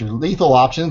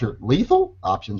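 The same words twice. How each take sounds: First: Lethal is said flat, as a plain statement. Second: Lethal rises in pitch, like a question. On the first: The option really is lethal. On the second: The option is doubtfully lethal.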